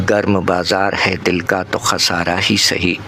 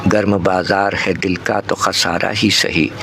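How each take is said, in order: No difference in how they are said.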